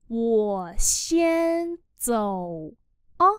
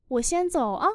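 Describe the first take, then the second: First: Long words, short final particle; slow model reading. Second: Said in the usual way. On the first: Shown as a demonstration. Teacher modelling "I'm off first" for learners, slowly. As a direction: stretch it out word by word.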